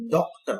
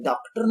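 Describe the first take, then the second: First: डॉक्टर with a rounded open aw, doctor; open o vowel. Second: डॉक्टर with a plain a, like daktar; wrong daktar; wrong vowel. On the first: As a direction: say डॉक्टर with the English aw. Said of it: "डॉक्टर, अ". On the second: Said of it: "डॉक्टर नहीं पढ़ते". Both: Shown as a demonstration.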